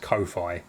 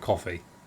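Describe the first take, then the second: First: It is said like hi-fi with co. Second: It is said like the drink coffee. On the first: "I see the word as hi-fi, but with co, so I, I read it as Ko-fi" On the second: "I think it's supposed to be coffee because you're buying someone a coffee"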